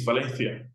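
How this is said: The name is said with Spanish pronunciation. "if you want to say the Spanish way"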